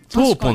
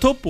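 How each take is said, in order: First: The first vowel is long with a single p. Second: The first vowel is short with a doubled p. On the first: This is the original Italian word for mouse. The speaker calls it right. "イタリア語で言うとトーポの方が正しい" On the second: This is the form the name took in Japan. The speaker calls it wrong. "トッポはTOPPO なんです"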